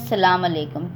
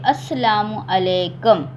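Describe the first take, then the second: First: The greeting starts directly with 'salam', shortened. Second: The greeting starts with 'as' and includes 'salamu'. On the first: The speaker calls it wrong. "वो बिल्कुल गलत है" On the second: The speaker calls it right. "सही वर्ड ये है"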